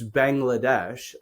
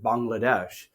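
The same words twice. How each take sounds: First: It is pronounced the usual anglicized way. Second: It is pronounced the way locals say it.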